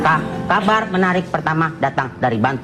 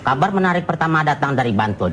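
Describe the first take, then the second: First: The first word is stammered before continuing. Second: The sentence flows smoothly without any stammering. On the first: "orang gagap" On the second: "Ya itu kan tadi udah lancar"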